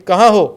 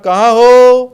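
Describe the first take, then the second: First: The final vowel is short and plain. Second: The final vowel is drawn out long. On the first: "कहाँ हो सीधा लिखाएगा" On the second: "हो जो है उसके आगे प्लुत लग रहा है"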